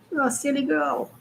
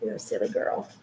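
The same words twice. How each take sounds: First: Said in the usual way. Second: Whisper. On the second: Real, not acted. Whispered take, then voiced.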